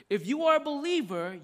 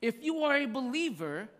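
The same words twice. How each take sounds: First: "are" pushed higher and louder; stress on are. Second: Said in the usual way. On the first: Shown as a demonstration. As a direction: lift and hit the word "are", louder.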